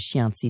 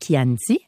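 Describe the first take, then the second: First: The word begins with a soft 'sh' sound. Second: The word begins with a hard 'k' sound. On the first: "il y a des gens qui disent Chianti" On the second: "ça se dit Chianti, comme des gnocchi"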